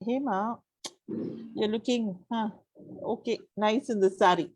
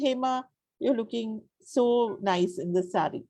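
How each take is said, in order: First: The compliment sounds hesitant and unconvinced. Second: The compliment sounds warm and sincere. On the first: The compliment is not meant. "I don't mean it" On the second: The compliment is meant. "you know that I'm being genuine"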